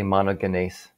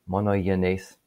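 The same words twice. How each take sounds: First: The g is pronounced hard. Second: The g is pronounced softly. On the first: "which is my English version of Greek" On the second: "soften the G and make it monogenes"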